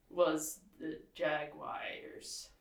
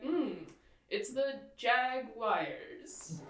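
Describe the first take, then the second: First: "Jaguars" with British vowels, slow. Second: Jaguars said slowly as "JAG-you-ars", British style; the Jaguars pronounced the careful British way; delicate Jaguars. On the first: Shown as a demonstration. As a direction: say "Jaguars" the English way. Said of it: "pronouncing that so delicately". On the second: Retold or imitated. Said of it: "I would be like".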